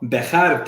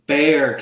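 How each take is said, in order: First: The name is said with two syllables. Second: The name is said with one syllable. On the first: This is the official form of the name. "San Antonio's county is called Bejar County" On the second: This is how everyone actually says it. "everybody says Bear County"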